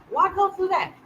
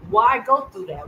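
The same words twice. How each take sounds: First: Pleading higher. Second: Said in the usual way. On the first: Real, not acted. To brothers and sisters, pleading high-pitched question.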